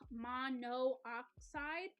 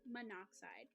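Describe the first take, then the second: First: The two o sounds are said separately. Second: The two o sounds merge into one. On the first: The speaker calls it wrong. "they don't say" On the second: The speaker calls it right. "make it sound nice and fluid"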